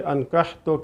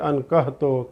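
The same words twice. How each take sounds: First: The h sound is a tight, throaty h. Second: The h sound is a soft, plain h. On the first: The speaker calls it right. "अनकहतो की जगह पे" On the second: The speaker calls it wrong. "यानी हा की जगह पे हा निकाल देता है"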